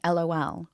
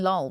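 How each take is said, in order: First: It is spelled out as three separate letters. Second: It is said as one word, rhyming with doll. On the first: This is how people do not say it. The speaker calls it wrong. "we're not saying LOL" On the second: This is how people actually say it. The speaker calls it right. "we're saying lol"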